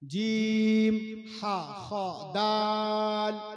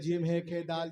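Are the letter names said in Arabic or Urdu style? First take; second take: Arabic; Urdu. First: The letter names are said in Arabic style. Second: The letter names are said in Urdu style. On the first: The speaker calls it right. "Right pronunciation" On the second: The speaker calls it wrong. "It is totally wrong"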